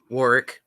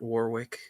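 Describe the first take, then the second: First: The middle w is silent, two short syllables. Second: The middle w is clearly pronounced. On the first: The speaker calls it right. "we, English people, come on, pronounce your syllables" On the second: The speaker calls it wrong. "not Warwick"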